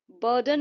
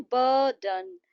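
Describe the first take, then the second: First: Said in the usual way. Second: burden drawn out, with heavy weight on बर; stress on BUR. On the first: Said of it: "तो बर जो है". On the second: Shown as a demonstration. Teacher demonstrating the stress mark, burden stressed on a long बर. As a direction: stretch बर, then let डन drop in burden. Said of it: "ये जो बर का साउंड है".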